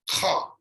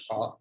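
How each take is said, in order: First: "Kha" as a rasping throat fricative; throaty Kha. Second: Said in the usual way. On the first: Shown as a demonstration. Teacher showing the visarga sound, guttural rasp on Kha. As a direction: say "Kha" as if clearing something stuck in the throat. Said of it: "like something is stuck in my throat". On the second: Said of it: "but it's not exactly Kha".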